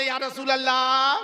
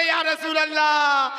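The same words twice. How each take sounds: First: Loud invocation at usual pitch; first, less forceful rallying cry; devotional call. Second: Very loud rallying invocation; booming call to the congregation; forceful devotional shout. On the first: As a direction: call it out for the congregation to follow. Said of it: "एक मर्तबा बोले". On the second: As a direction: shout it with full force for the crowd. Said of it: "और जोर से बोले". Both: Shown as a demonstration.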